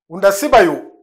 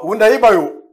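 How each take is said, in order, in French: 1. Le premier mot est prononcé en entier avec 'si'. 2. Le premier mot est contracté, il se termine par 'ai'. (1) "parfois on dit le mot complet" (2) "parfois on contracte"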